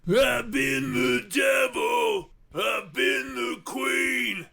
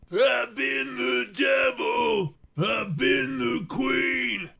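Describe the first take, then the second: No difference in how they are said.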